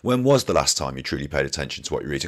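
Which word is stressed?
none. The word you carries no special stress.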